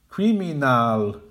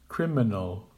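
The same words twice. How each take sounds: First: "Criminal" as KRI-MI-NAL, slow and full; incorrect full vowels. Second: "Criminal" as KRIM-in-ul, first syllable strong; correct with schwas. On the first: Teacher modelling the wrong "Criminal". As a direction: give every syllable of "Criminal" a full vowel. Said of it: "the incorrect pronunciation". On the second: Teacher modelling the correct "Criminal". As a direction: reduce the last two syllables of "Criminal". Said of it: "Make the weak syllables quiet". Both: Shown as a demonstration.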